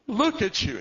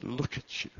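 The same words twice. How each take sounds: First: High, loud sobbing cry; tearful cry. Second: A hint of tearful. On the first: Retold or imitated. Father embracing his lost son, crying out loud. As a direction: let it break out of him.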